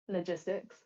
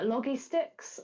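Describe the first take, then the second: First: It is said as one ordinary word, logistics. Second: It is said as two words, loggy sticks. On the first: The speaker calls it right. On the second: The speaker calls it wrong.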